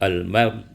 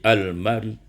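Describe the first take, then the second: The two takes are said the same way.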